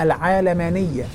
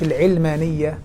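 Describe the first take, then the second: First: It begins with a long 'aa', like 'aalam'. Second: It begins with a short 'i', like 'ilm'. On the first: The word comes from the word for world. The speaker calls it right. "أنا على فكرة بقولها العالمانية ... لأنها من العالم" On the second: The word comes from the word for knowledge. The speaker calls it wrong. "مش العلمانية ... مش من العلم"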